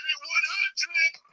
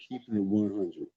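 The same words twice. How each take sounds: First: One hundred sung out very high and slow; stretched falsetto. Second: Soft plain repeat. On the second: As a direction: drop back to a quiet sincere line. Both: Shown as a demonstration. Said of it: "being sincere".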